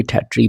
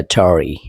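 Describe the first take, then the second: First: टैटरी in two beats, "TERR-tree"; British pronunciation. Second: टैटरी drawn out as "TERR-uh-TORY"; American pronunciation. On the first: Teacher shows how British and we read it, British pronunciation. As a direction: end टैटरी on a short "tree". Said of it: "हम भी टैटरी पढ़ते हैं". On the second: Teacher shows what Americans call it, American pronunciation. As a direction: give टैटरी a full falling "TORY" ending. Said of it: "American इसको बोलते हैं". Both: Shown as a demonstration.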